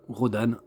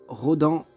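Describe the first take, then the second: First: Rodan ending "-anne", the N pronounced; sounded final N. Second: Rodan ending in a nasal "an", no N heard; nasal final vowel in Rodan; French nasal ending. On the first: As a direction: say Rodan with an open A and clear N. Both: Shown as a demonstration. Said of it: "on prononce ça".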